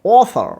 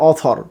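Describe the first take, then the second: First: অথর with English th as in "thin", high pitched; correct th. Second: অথর with a Bengali থ stop for th; common mispronunciation. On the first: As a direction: breathe the th through in অথর, no stop. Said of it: "sound হবে". (অথর-এ ইংরেজি th ধ্বনি) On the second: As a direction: say অথর with a hard aspirated t-h. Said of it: "আমরা বলি". (অথর-এ বাংলা থ দিয়ে ভুল উচ্চারণ) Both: Shown as a demonstration.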